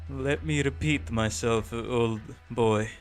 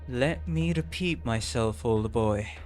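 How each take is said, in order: First: It is said in a put-on Russian accent. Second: It is said in the speaker's ordinary accent.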